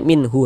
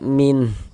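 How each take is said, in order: First: The word ends with a vowel after h. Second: The word ends on the h with no vowel. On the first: The speaker calls it wrong. "jangan dibaca minhu" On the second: The speaker calls it right. "tapi dibaca min"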